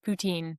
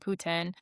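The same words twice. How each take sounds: First: It is said with an English pronunciation. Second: It is said with a French pronunciation. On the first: This is how English-speaking Canadians say it. "as we also say it as English speaking Canadians" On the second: This is how French speakers in Quebec say it. "if you're in Quebec and you're speaking French, it would be"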